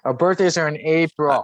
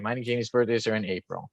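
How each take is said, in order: First: "birthdays" said again clearly and louder, falling at the end; repeated louder. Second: Words lost to a dropping call. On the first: Shown as a demonstration. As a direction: repeat "Our birthdays are in April" loud and clear. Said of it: "I'm sorry, my mic cut out". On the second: Real, not acted. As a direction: voice cutting out over a bad line. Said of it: "my mic cut out".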